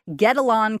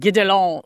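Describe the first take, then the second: First: The name is said with an American pronunciation. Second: The name is said with a French pronunciation. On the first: The speaker calls it wrong. "that's probably my Americanized pronunciation" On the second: The speaker calls it right. "in French, it's like Gidelon"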